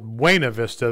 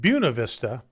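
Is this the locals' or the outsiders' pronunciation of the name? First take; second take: outsiders; locals. First: The name is said the standard outsider way. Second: The name is said the local native way. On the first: The person is not from the town. "They'd use the actually correct pronunciation" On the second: The person lives in the town. "the natives, we called it Buena Vista"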